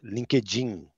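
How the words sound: It is said with a Brazilian Portuguese accent.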